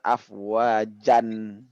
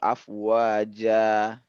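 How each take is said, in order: First: The word ends with an added n sound. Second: The word ends in a long open vowel. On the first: The speaker calls it wrong. "bukan afwajan" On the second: The speaker calls it right. "materi penggiring yang baru afwaja"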